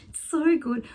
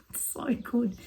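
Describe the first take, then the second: First: Cheering the news on; delighted exclaim. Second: Breathy whispered delight, half laughing; a secret little thrill, barely voiced; gleeful whisper. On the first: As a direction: let the delight burst out. Repeats the delight out loud. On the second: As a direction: whisper it to yourself, savouring it. Gleeful aside about Germans fighting. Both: Real, not acted.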